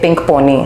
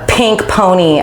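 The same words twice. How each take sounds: First: It is said in a Hindi-influenced accent. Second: It is said in an American-style accent. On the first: The speaker calls it wrong. "my accent आ जाता है कि ... I say pink pony" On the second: The speaker calls it right. "instead of"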